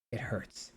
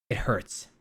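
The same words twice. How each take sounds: First: It hurts whispered with no voice. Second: Said in the usual way. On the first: Shown as a demonstration. Repeating it hurts as a whisper about tech. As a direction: drop to a breathy secret whisper.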